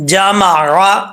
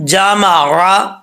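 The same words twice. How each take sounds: First: Said in the usual way. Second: جامع را stretched slowly in reciting voice; slow recited. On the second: Shown as a demonstration.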